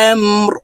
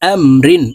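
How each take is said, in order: First: The word ends on a bare r sound. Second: The word ends with an -in sound. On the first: "রকে ওয়াকফের ক্ষেত্রে সাকিন করে ফেলবো" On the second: "র দুই জের রিন"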